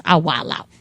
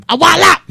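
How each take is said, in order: First: Said in the usual way. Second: Much higher and louder, wilding out; mock loud outburst. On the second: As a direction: blurt it like losing control.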